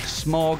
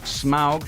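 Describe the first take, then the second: First: The vowel sounds like the word 'smog'. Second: The vowel sounds like 'ow', as in 'cow'. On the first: The speaker calls it wrong. "not Smog, as I've always read it" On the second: The speaker calls it right. "That's Smaug"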